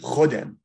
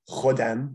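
First: The word has an e vowel sound. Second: The word has an a vowel sound. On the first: "in this dialect would be chodem" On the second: "The a sound becomes e"

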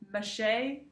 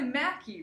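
First: The middle consonant is a 'sh' sound. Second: The middle consonant is a 'k' sound. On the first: The speaker calls it wrong. "or they say Mache" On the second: The speaker calls it right. "but it's really Mackie"

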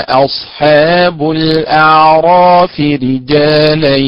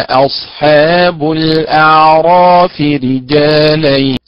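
The two takes are said the same way.

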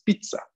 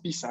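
First: The double z has the Italian pronunciation. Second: The double z is read with Spanish letter sounds. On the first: The speaker calls it right. "yo estudio italiano, es pizza" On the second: The speaker calls it wrong. "no es pizza"

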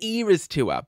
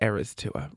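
First: Era is said with a British pronunciation. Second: Era is said with an American pronunciation. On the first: "I always say the era's tour" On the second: "that's how Americans pronounce it"

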